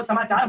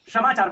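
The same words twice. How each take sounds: First: Said in the usual way. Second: समाचार opening with "sha" instead of "sa"; hill-region pronunciation. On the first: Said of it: "श को श बोलते हैं". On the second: Shown as a demonstration. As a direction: say समाचार as "shamachar". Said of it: "वो लोग समाचार बोलते हैं".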